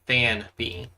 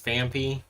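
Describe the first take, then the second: First: The middle consonant sounds like an N. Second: The middle consonant sounds like an M. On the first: The speaker calls it right. "it's supposed to be Fanpy" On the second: The speaker calls it wrong. "I don't know why I enunciated as Fampy"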